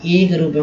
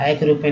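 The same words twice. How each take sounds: First: एक opened with a pure "ay" vowel, ए. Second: एक opened with a wide "ae" vowel, ऐ. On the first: Teacher explains the magic-e rule, long ए sound. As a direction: say एक रूप with the tense ए sound. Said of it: "उच्चारण एक रूप में होने वाला". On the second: Teacher names the vowel to avoid, open ऐ sound. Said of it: "एक रूप में नहीं". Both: Shown as a demonstration.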